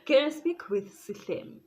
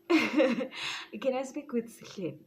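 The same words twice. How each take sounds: First: Raised, higher insistent question; bold phone request. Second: Slow, higher drawn-out posh request; slow put-on phone voice. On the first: Retold or imitated. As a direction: demand him loudly. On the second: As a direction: stretch it out in a fake phone voice. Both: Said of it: "I almost said his name".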